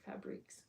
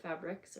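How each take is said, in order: First: "Fabrics" ending in a long ee, like fab-REEKS; alternative pronunciation. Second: Said in the usual way. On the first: Shown as a demonstration. Crafter unsure of a shop's name, "Fabrics" pronounced fab-reeks. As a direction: say "Fabrics" with -eeks in place of -iks. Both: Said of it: "I always say that wrong".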